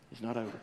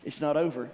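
First: Softer, lower echo of It's not over; quiet repeat. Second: Said in the usual way. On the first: Shown as a demonstration. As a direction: drop it to a hush.

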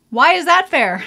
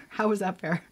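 First: Loud, high mock-indignant cry; mock outrage. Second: Said in the usual way. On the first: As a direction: protest the unfairness, loudly and high. Mock complaint about sister's smooth skin.

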